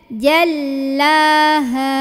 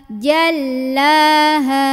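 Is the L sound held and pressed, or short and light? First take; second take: held; held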